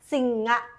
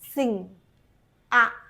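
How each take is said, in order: First: It is said quickly with the parts run together. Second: It is said slowly with a gap between parts.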